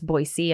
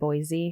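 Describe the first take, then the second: First: The middle consonant is an S sound. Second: The middle consonant is a Z sound. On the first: The speaker calls it right. "it's Boise" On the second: The speaker calls it wrong. "and not Boise"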